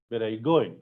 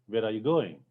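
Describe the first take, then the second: The two takes are said the same way.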